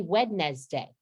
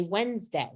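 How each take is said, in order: First: "Wednesday" as wed-nez-day; every printed syllable sounded. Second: "Wednesday" as wenz-day; everyday spoken form. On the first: Teacher showing what we don't say, spelled-out "Wednesday". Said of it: "We don't say Wednesday". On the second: Teacher showing what we do say, two-syllable "Wednesday". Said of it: "We say Wednesday". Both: Shown as a demonstration.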